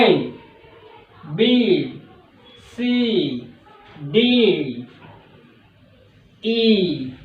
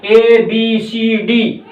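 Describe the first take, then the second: First: ए, बी, सी, डी said soft and low; soft letters. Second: ए, बी, सी, डी said hard and flat; ए, बी, सी, डी the way not to say them; wrong hard letters. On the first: Teacher modelling soft alphabet for students to repeat. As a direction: breathe the letters out gently. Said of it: "थोड़ा sign को soft बोलना है". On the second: Teacher showing students the wrong hard alphabet. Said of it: "ऐसे नहीं बोलना है". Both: Shown as a demonstration.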